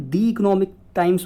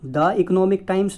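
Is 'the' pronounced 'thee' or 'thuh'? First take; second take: thee; thuh. First: 'The' is said with a long 'thee' sound. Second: 'The' is said with a short 'thuh' sound. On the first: The speaker calls it right. "दी economic times बोलेंगे" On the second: The speaker calls it wrong. "द economic times नहीं बोलेंगे"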